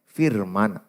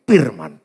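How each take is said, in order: First: The word starts with a forced F sound. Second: The word starts with a P sound. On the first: The speaker calls it right. "Saya paksa F" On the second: The speaker calls it wrong. "kita bilang orang Batak P"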